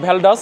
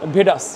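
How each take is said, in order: First: The name is said with an L sound. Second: The name is said without an L sound. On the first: The speaker calls it wrong. "এটা হচ্ছে ভ্যালডাস না" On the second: The speaker calls it right. "এটা উচ্চারণ হবে ভেডাস, এলটা উচ্চারণ হবে না।"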